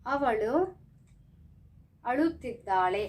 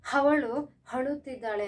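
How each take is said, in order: First: Said in the usual way. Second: ಅವಳು ಅಳುತ್ತಿದ್ದಾಳೆ with a wrong H before each word; added H sound. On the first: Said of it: "ಕನ್ನಡದಲ್ಲಿ". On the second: Shown as a demonstration. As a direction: say ಅವಳು as "havalu", ಅಳುತ್ತಿದ್ದಾಳೆ as "haluttiddale". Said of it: "ಹಾ use ಮಾಡ್ತೀವ ನಾವು ಅವಳುಗೆ".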